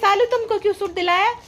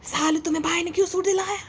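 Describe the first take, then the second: First: It is said in her own normal voice. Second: It is said imitating her mother's tone.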